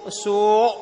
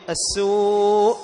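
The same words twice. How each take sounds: First: السوء ending in a heavy, gagging throat catch; faulty thickened hamza closing السوء; wrong retching hamza. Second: السوء slowly, long uu closed by a hamza; final hamza demonstration. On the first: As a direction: force the final hamza of السوء like someone retching. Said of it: "لا، خطأ". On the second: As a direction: hold the uu of السوء, then stop it. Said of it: "صوت يشبه صوت المتهوع". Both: Shown as a demonstration.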